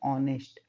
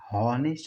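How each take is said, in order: First: The word begins directly with a vowel. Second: The word begins with an h sound. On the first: The speaker calls it right. "ओ पढ़ते" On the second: The speaker calls it wrong. "हॉनेस्ट नहीं पढ़ते, ह नहीं पढ़ते"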